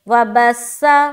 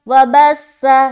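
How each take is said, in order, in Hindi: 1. 'th' की आवाज़ सीटी वाली 's' बन जाती है। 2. 'th' की आवाज़ सीटी वाली 's' बन जाती है।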